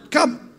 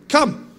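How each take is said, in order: First: "Come." flung out very high and loud, one word; commanding call. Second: A high, ringing "Come." called across the water; Jesus calling "Come." high and loud over the water; commanding call. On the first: Preacher answering his own question with Jesus's call, very high and loud. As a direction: echo the Lord's "Come." even higher, ringing out. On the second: Preacher as Jesus calling Peter onto the water, a high ringing call. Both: Acted.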